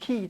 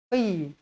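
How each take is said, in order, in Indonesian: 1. Konsonan pertama itu bunyi k yang tipis dan ringan. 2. Konsonan pertama itu bunyi q yang tebal dan dalam. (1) "Jangan baca ki ki" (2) "Qi tebal"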